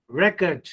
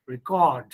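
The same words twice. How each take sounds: First: "record" stressed on REC, as a noun; first-syllable stress. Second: "record" stressed on CORD, as a verb; second-syllable stress. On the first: Teacher contrasting noun with verb, "record" stressed on REC. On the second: Teacher contrasting verb with noun, "record" stressed on CORD. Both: Shown as a demonstration. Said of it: "but in verb".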